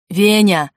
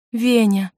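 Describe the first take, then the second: First: Loud call of a name; sharp loud cry; shout. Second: Said in the usual way. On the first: A narrator's reading. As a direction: shout out to a friend. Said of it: "закричал Андрюша".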